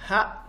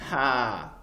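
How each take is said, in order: First: The vowel is short. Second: The vowel is drawn out long. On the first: "avec une voyelle courte" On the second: "On allonge"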